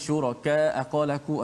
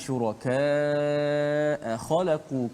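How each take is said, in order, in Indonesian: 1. Vokal sebelum hamzah dibaca pendek. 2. Vokal sebelum hamzah dibaca panjang.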